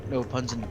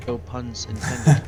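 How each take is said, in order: First: Said in the usual way. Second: Drawn out, slow no puns intended; slowly milk the pun; mock-solemn slow pun disclaimer; slow deadpan pun. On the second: Shown as a demonstration.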